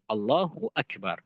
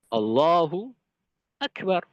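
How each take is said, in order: First: The two words run together without pause. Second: A long pause separates the two words. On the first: The speaker calls it right. "harus diucapkan uh, secara langsung" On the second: The speaker calls it wrong. "Jedanya lama"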